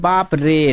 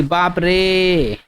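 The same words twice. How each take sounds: First: Said in the usual way. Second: बाप रे with the रे stretched very long and slow; drawn-out exclamation. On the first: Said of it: "खींच रहे हैं". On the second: Shown as a demonstration. Teacher stretching बाप रे for students, slow and drawn out. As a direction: drag out the last vowel of रे. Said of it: "तीन गुना समय तक खींच रहे हैं".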